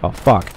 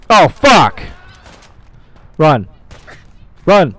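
First: Said in the usual way. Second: Loud, high yells in bursts; panicked shout. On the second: Real, not acted. Player fleeing in a game fight, panicked shouting. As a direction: shout it as you bolt from danger.

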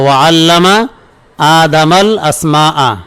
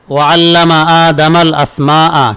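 First: Slow, broken-up repetition for students; slow repeat. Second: Slow, measured Quranic chant; slow flowing recitation of the verse. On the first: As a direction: split into two parts with a pause between. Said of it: "কি বলে এলো?". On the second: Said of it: "এটা কোরআনের আয়াত". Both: Shown as a demonstration.

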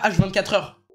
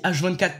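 First: «H vingt-quatre heures» with «heures» added at the end; wrong phrase. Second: Said in the usual way. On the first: Shown as a demonstration. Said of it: "pas H vingt-quatre heures". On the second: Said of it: "Personne ne parle comme ça".

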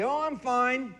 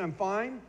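First: Higher breezy "I'm fine"; fake-cheerful deflection. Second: Said in the usual way. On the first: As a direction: brush it off brightly. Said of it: "what fine stands for". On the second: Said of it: "you ask me".

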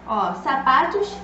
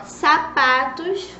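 First: Said in the usual way. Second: Sapatos drawn out slowly, syllable by syllable, rising at the end; slow spelling-out voice. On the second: Shown as a demonstration. Teacher to small children, stretching sapatos out slowly. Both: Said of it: "começa com a letrinha S".

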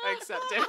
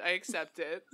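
First: I accept it squeaked much higher; high squeaky repeat. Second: Said in the usual way. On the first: Real, not acted. Playful high squeak accepting her brand.

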